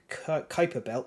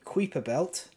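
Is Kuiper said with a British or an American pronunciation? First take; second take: American; British. First: Kuiper is said with an American pronunciation. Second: Kuiper is said with a British pronunciation. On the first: The speaker calls it right. "depending whether you're British or American" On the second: The speaker calls it wrong. "depending whether you're British or American"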